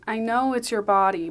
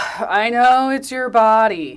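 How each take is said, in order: First: It sounds gentle, sympathetic and apologetic. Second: It sounds dismissive, sarcastic and condescending. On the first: The speaker sympathizes and wants to make peace. "I think we originally read it like" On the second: The speaker brushes off her view.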